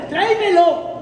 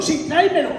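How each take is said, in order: First: "tráemelo" lifted higher and louder; commanding echo; louder insistent repeat. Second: Said in the usual way. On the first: Pretend. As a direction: press "tráemelo" hard. Order repeated.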